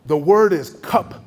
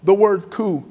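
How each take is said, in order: First: "cup" said with a short "u" like cup, louder; mispronounced coup. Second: "coup" said as "coo", louder; coup said right. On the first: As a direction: say "cup" like the drinking cup, not "coo". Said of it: "I'm not supposed to use the word coup". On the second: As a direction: finally give him "coup" as "coo". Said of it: "That's the word you're looking for". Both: Retold or imitated.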